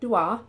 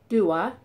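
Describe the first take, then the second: First: The name is said with an Arabic pronunciation. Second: The name is said with an English pronunciation. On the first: This is the original way of saying it. "in the Arabic pronunciation" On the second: This is how people commonly say it. "people on YouTube mentioning"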